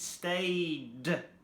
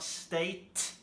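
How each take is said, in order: First: The word ends with a d sound. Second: The word ends with a t sound. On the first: The speaker calls it right. "it's stayed with D" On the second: The speaker calls it wrong. "It's not state"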